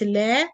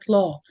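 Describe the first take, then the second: First: The L is light, with a thin vowel. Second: The L is heavy, with a deep vowel. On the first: "sometimes the lam will be light" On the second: "heavy lam or lam mufakhama"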